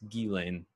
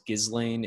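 First: The name is not pronounced the way it is spelled. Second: The name is pronounced the way it is spelled. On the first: The speaker calls it right. "It's Ghislaine Maxwell" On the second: The speaker calls it wrong. "I mispronounced it in like a couple episodes ago as Ghislaine"

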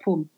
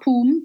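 First: The vowel is kept short. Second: The vowel is held long. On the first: The speaker calls it right. "So it's short" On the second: The speaker calls it wrong. "Not poom"

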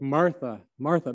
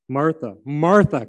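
First: It sounds sad and disappointed. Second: It sounds angry and impatient.

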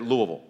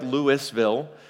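First: The middle is swallowed, Kentucky local style. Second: Every syllable is spelled out fully, tourist style.

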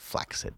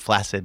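First: The middle is said with a ks sound. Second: The middle is said with a single s sound. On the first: The speaker calls it right. "It's two C's. It is flaccid" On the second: The speaker calls it wrong. "It is not flaccid"

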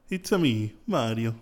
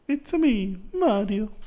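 First: A normal-pitched Italian-accented Mario voice. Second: A higher-pitched cartoon Mario voice.

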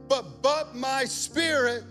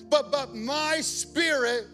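The two takes are said the same way.

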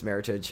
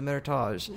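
First: The word gets an English-sounding pronunciation. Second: The word gets a French-sounding pronunciation. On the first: The speaker calls it right. "not a French word. It's an English word" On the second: The speaker calls it wrong. "They're like, oh, the Meritage"

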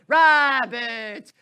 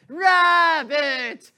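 First: The name is said in a theatrical, stylized way. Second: The same.

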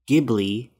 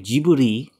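First: The name is said the non-Japanese way. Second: The name is said the Japanese way. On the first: "because that's what he actually named it after" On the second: "when you translate it into Japanese, you pronounce it with the characters Jiburi"

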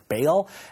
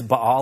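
First: The name is pronounced in an anglicized way. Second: The name is pronounced in a Hebrew-like way. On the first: "The way I was raised to pronounce it is Baal" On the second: "the more Hebraic way to pronounce it is Baal"

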